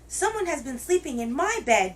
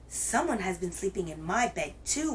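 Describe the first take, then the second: First: It is said in a wee little voice. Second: It is said in a medium-sized groaning voice.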